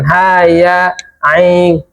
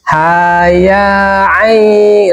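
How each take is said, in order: First: The words are cut apart with a break. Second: The words run together without a break. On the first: The speaker calls it wrong. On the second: The speaker calls it right.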